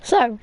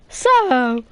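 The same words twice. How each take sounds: First: Voice crack. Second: Mock voice crack on so; imitating voice crack. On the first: Real, not acted. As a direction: voice cracks on the word. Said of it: "that was the worst voice crack". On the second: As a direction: copy the crack on purpose. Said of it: "That "so" sounded just a bit like that".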